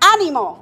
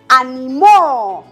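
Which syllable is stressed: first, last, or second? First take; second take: first; last. First: The stress is on the first syllable. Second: The stress is on the last syllable. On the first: "Es palabra esdrújula" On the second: "Palabra aguda"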